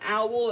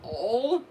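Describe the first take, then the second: First: The vowel sounds like the one in 'owl'. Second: The vowel sounds like the one in 'all'. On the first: The speaker calls it wrong. "It's not called an owl" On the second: The speaker calls it right. "it's called an awl"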